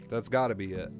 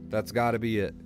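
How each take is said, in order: No difference in how they are said.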